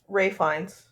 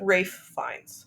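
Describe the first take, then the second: First: It is said fast, with the F sounds merged. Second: It is said carefully, with both F sounds heard. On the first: "you say it really fast and it just sounds like Ray Fiennes" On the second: "you're supposed to say a double F"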